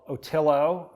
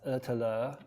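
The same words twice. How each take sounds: First: The name is said with an American pronunciation. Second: The name is said with its native pronunciation. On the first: The speaker calls it wrong. "as the Americans would say" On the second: The speaker calls it right. "It's actually pronounced Otillo"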